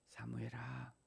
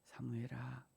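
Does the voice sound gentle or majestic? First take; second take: gentle; gentle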